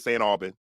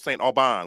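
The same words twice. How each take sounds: First: The name is said with an American pronunciation. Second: The name is said with a French pronunciation. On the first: This is how locals say it today. "we say Saint Aubin today" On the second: This is the original French form. "I'm just telling you what his name was at the time"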